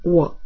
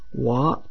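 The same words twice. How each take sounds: First: The pitch starts high and falls low. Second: The pitch starts lowish and rises high. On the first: "O quarto tom é descendente, começa agudo e vira grave" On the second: "O segundo tom é ascendente, começa um pouco grave e fica agudo"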